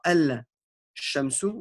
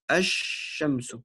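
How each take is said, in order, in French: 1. Le son L se prononce avant le sh. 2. Le L se fond dans un sh doublé. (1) "on ne dira pas" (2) "on dira"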